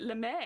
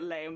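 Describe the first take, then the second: First: The word is given its German pronunciation. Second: The word sounds like the English adjective 'lame'. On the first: It names the fabric. "in German, we pronounce it lame" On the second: It mocks the fabric as bad. "I'm going to keep calling it lame because it's a nightmare fabric"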